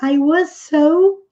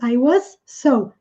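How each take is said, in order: First: The s sounds merge into one s. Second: Each s sound is said separately. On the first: "tende-se a unir as duas e pronunciar uma vez só" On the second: "em vez de"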